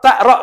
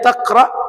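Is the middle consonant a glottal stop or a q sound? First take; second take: glottal stop; q sound. First: The middle consonant is a glottal stop. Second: The middle consonant is a deep q sound. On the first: "ta'ra kata orang Mesir" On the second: "bahasa kita nyebutnya taqra"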